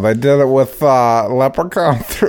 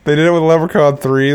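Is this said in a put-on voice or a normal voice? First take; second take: put-on; normal. First: It is said in a put-on character voice. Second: It is said in the speaker's ordinary voice. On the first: "I just realized I was still talking like that" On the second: "You're using your normal voice"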